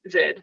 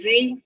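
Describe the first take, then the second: First: The letter is said the Australian way, 'zed'. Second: The letter is said the American way, 'zee'. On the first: "Australians tend to use Z" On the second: "Americans tend to say Z"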